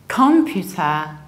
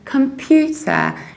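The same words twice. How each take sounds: First: The stress is on the first syllable. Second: The stress is on the second syllable. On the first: The speaker calls it wrong. "stressing the very first syllable" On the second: The speaker calls it right. "You stress pew"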